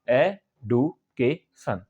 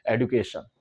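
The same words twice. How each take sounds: First: "education" in four slow beats, ए-डु-के-शन; syllable by syllable. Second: Said in the usual way. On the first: Shown as a demonstration. Teacher counting syllables for learners, "education" said slowly in four parts. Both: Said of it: "चार बार में बोलते हैं".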